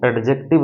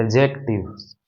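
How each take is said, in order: First: एडजेक्टिव said without the final s sound; wrong way, no final s. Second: एडजेक्टिव्स said ending clearly in s; correct way, with final s. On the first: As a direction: say एडजेक्टिव ending on the v, as the mistake. (एडजेक्टिव बिना आख़िरी स के, ग़लत उच्चारण) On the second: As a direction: say एडजेक्टिव्स with the s sounded at the end. (एडजेक्टिव्स आख़िर में स साफ़ बोलते हुए) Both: Shown as a demonstration. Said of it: "इसको बोलने सीखिएगा ना".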